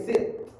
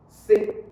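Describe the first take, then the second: First: "sit" with a popped T at the end; released final T. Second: "sit" stopped short, T not released; silent final T. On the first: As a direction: pop the T in "sit". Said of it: "you can sound the pap sound". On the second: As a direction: cut "sit" off before the T pops. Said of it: "or you might silent". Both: Shown as a demonstration.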